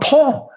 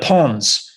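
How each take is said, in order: First: The name ends without any S sound. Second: The name ends with an audible S sound. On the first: The speaker calls it right. "oh, Pon" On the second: The speaker calls it wrong. "I thought it was Pons"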